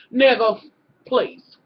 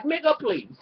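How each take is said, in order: First: Dismissive scoff. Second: Said in the usual way. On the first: Retold or imitated. Vlogger acting out the doctor's fed-up face, a louder dismissive scoff. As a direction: lean into the contempt, stretch the words. Sighs, then acts the doctor's line.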